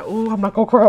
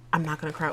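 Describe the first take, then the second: First: Louder, cracking as tears come; fighting tears and losing; voice breaking into tears. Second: Softer, quietly steadying herself; softly holding back tears. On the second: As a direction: swallow the tears and keep it down. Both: Real, not acted.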